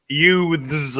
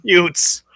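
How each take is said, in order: First: "Youths" drawn out with a careful th; corrected, over-enunciated. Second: "Utes" said with a hard t for th; film-quote mispronunciation. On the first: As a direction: correct yourself to "Youths", every sound deliberate. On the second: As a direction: say "Utes" like "yoots", th turned to t. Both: Acted. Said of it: "Cousin Vinny".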